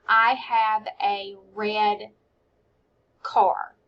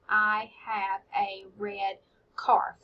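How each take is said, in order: First: "I have a red car" said slowly, word by word with pauses; each word separate. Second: "I have a red car" said slowly with a rise at the end; word by word. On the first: Teacher modelling counting words in a sentence. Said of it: "count out the different words". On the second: Teacher repeating the sentence while counting words. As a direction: count out each word as you say it. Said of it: "five words in that sentence". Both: Shown as a demonstration.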